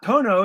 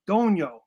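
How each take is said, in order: First: The middle consonant is a plain n sound. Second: The middle consonant is a palatal ny sound. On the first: The speaker calls it wrong. "It's not Tono" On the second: The speaker calls it right. "because the N has the what's it called? ... Squiggly"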